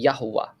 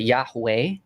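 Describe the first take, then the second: First: The vowels are all short and quick. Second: The first vowel is a long ya sound. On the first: The speaker calls it right. "So it would be quick vowels niqud. So it'd be Yahuwah" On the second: The speaker calls it wrong. "nobody would ever pronounce it Yahweh because there's no long ya vowel"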